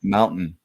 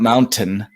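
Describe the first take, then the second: First: The middle t sound is dropped. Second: The middle t sound is clearly pronounced. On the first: "in Utah, we don't say our T's" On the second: "not mountain"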